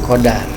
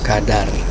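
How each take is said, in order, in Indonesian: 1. Vokal pertama adalah o. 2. Vokal pertama adalah a terbuka. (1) "bukan kodar" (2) "a menjadi a bukan o"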